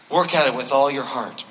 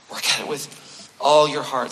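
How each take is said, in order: First: Said in the usual way. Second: Slower, leaning on "all"; slow down and press "all"; stress on all. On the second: Shown as a demonstration. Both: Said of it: "repeated for emphasis".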